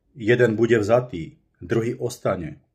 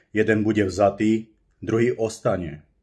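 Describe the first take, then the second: No difference in how they are said.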